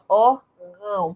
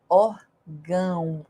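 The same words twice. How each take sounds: First: The nose is blocked, giving a pinched sound. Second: The sound flows out freely through the nose. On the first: "Se você fechar o seu narizinho lindo, vai ficar assim" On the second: "olha por onde o som sai"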